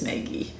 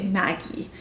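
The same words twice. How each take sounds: First: "Maggie" said as MAY-gee, first vowel as in "day"; "Maggie" with the raised A, like "may-ghee"; Maggie with a long A. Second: "Maggie" said as MAG-ee, first vowel as in "cat"; "Maggie" with a flat short A, like "mag". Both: Shown as a demonstration. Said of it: "Or as most people would say".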